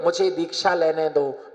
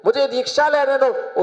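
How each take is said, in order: First: Said in the usual way. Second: Much higher, pressing repeat; insistent retold plea. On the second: Son begging mother to allow initiation, insistent. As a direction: plead again on a raised pitch.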